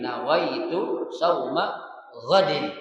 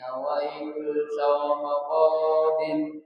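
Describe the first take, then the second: First: The vowels in the phrase are kept short. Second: A vowel in the phrase is drawn out long. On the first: The speaker calls it right. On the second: The speaker calls it wrong. "jangan dipanjangin begini ... Itu salah banget itu"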